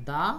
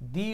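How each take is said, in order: First: The word is said with a 'duh' vowel. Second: The word is said with a 'dee' vowel. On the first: "হর্সের ক্ষেত্রে আমরা ব্যবহার করব দা horse" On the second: "অনেস্টের সামনে উচ্চারণ করবেন হলো দি honest"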